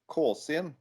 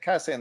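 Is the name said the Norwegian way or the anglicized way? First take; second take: Norwegian; anglicized. First: The name has a Norwegian vowel sound. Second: The name has an anglicized vowel sound. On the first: This is how the band members say it at home. "in Norwegian. Uh, it uh, I I pronounce it Kåsin" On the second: This is the easiest form for audiences abroad. "Kassin is the best way to pronounce it uh, out there"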